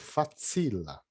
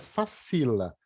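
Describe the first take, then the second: First: The c sounds like ts. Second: The c sounds like a plain s. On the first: The speaker calls it right. "Tem um Tzinho aí que soa" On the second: The speaker calls it wrong. "Não é facila"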